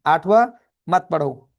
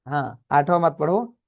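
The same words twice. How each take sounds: First: आठवां called out loud with a rising lift, then मत पढ़ो; stress on आठवां. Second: Said in the usual way. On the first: Real, not acted. Teacher warning students to skip question eight, stress on आठवां. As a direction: punch आठवां to warn them off.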